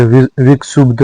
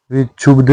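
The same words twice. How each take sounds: First: विक्षुब्ध with joined ksh; correct cluster. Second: विक्षुब्ध said as "vichhubdh"; wrong cluster. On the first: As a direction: say विक्षुब्ध as "vikshubdh". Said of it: "होता है". (विक्षुब्ध में शुद्ध क्ष) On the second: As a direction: replace क्ष with chh in विक्षुब्ध. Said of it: "नहीं होता". (विक्षुब्ध में छ) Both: Shown as a demonstration.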